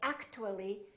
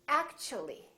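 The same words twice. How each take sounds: First: The t is said as a plain t. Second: The t is said like ch. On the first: The speaker calls it wrong. "we don't say actually" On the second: The speaker calls it right. "The T becomes kind of a C H sound"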